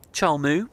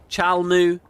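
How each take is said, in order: First: "Chol Moo" with a rounded o, as Chol; wrong pronunciation. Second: "Chal Mu" with an open a, as chal; corrected pronunciation. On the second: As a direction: say "Chal Mu" with a clear ah. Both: Shown as a demonstration. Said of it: "It's just we're Chal, not Chul".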